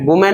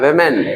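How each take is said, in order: First: The first vowel sounds like 'oo'. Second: The first vowel sounds like 'e'. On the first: The speaker calls it wrong. "इसको वुमेन नहीं पढ़ना है" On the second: The speaker calls it right. "ये वेमेन है"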